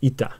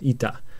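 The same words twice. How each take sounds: First: A short stop comes before the t sound. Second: The first vowel is stretched into a long sound. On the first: The speaker calls it right. "ita with a short pause there" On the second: The speaker calls it wrong. "like a long e sound"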